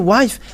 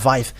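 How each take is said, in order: First: The word begins with a W sound. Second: The word begins with a V sound. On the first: Eastern listeners hear it as a different word. "But if you say wife, ... they're uh, taking it as something else" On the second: This is how people in Eastern countries say it. "they uh, pronounce it uh"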